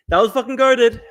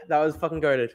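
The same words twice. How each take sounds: First: Louder, higher, gleeful; fired-up shout of approval; hyped repeat. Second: Said in the usual way. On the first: Real, not acted. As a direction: shout the praise. Repeating his own praise hyped.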